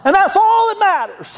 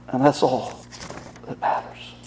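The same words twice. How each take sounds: First: Very high reenacted holler; top-of-lungs shout. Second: Low, soft, fading into a whisper; hushed repeat. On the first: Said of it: "to the top of his lungs". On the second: Real, not acted. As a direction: let it drop away to a whisper, with pauses. Preacher softly repeats his father's words.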